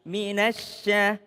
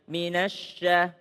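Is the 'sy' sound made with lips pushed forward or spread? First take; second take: spread; pushed forward. First: The sy sound is made with spread, smiling lips. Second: The sy sound is made with protruded lips. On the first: The speaker calls it right. "senyum aja, biasa aja" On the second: The speaker calls it wrong. "jangan minasya"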